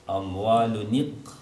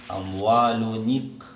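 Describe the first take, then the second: Both takes have the same delivery.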